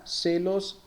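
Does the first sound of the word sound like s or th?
s. The first consonant is an s sound. "En la mayoría de las regiones que hablan español en el mundo es igual que en portugués"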